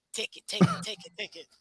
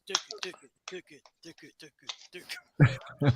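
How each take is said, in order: First: Breathy hushed chant, much softer; whispered. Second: Nigerian accent. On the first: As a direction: whisper it close to the mic. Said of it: "doing the Nigerian voice". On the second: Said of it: "like doing the Nigerian voice". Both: Shown as a demonstration.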